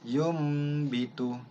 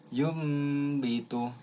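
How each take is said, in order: Both takes have the same delivery.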